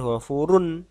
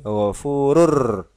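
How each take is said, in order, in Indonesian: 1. Kata ini diakhiri dengan bunyi n yang jelas. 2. Bunyi n di akhir diganti dengan bunyi r. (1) "bukan ghafurun" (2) "tapi ghafurur"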